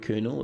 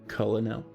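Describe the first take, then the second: First: The word is said the standard way. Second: The word is said the misread way. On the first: The speaker calls it right. "pronounce the word Colonel" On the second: The speaker calls it wrong. "my brain kept trying to um, pronounce the word Colonel as Colonel"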